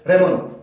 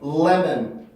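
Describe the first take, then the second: First: It starts directly on the L sound. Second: A short hum comes before the L sound. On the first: The speaker calls it wrong. "레몬 이렇게 나는 게 아니라" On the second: The speaker calls it right. "이 앞에 을과 비슷한 소리가 먼저 나올 수밖에 없어요"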